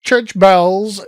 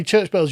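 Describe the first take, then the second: First: Loud mimicry of a weak American accent; exaggerated, failed American accent; mock American accent. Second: Said in the usual way. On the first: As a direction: mockingly echo a badly faked American accent. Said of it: "weakest attempt at an American accent".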